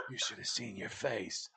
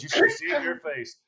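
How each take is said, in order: First: Slow, low, soft mock taunt; hushed retold teasing. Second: High-pitched mock taunt; lively retold teasing. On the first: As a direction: drop the jab quietly and take your time. Same jab retold, second take. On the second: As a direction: call out the jab, pitch up. Her parting jab, first take.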